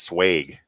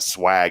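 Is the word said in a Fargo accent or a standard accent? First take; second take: Fargo; standard. First: It is said with a Fargo-style regional vowel. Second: It is said with an ordinary, standard vowel. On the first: "when I was in Fargo, it's pronounced swag" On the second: "it's not swag"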